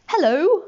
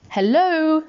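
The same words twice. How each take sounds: First: High hello with rising end; bright upward questioning lilt; answering hello. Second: Higher, drawn-out call into the dark; lifted, held final syllable; calling hello. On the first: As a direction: answer like a curious stranger. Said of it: "said whatever it was". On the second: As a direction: sing out to see who's there. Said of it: "said Pooh, in case there was". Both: A narrator's reading.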